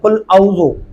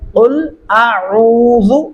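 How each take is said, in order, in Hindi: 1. गले का व्यंजन 'ain' छोड़ दिया जाता है। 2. गले का व्यंजन 'ain' साफ़ बोला जाता है। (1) "औज़ु नहीं करना ये बहुत बड़ी गलती है। इस तरीके से आप आइन का वजूद खत्म कर डालते हैं" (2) "अब इसका सही तरीका क्या है"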